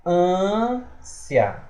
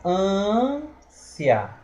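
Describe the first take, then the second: Both takes have the same delivery.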